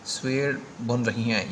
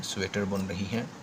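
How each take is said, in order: First: स्वेटर read without its 'ta', as 'swer'; misspelt reading. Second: Said in the usual way. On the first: Shown as a demonstration. Teacher reading out a misspelt sentence, स्वेटर shortened to 'swer'. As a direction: drop the middle t-sound of स्वेटर. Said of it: "यहाँ पे स्वेटर लिखना था". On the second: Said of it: "इस तरह करके इसको लिख सकते हैं".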